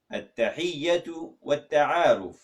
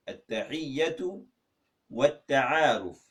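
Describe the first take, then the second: First: At-Tahiyyatu Wat-Ta'aruf said slowly in Arabic; Arabic title. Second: At-Tahiyyatu rising, pause, Wat-Ta'aruf slow and falling; split in two. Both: Shown as a demonstration. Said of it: "how do you say greeting and introduction".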